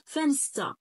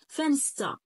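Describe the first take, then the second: First: The middle cluster sounds like st. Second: The middle cluster sounds like st.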